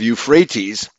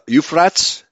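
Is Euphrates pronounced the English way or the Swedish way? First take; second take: English; Swedish. First: The word is pronounced the usual English way. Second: The word is pronounced the Swedish way.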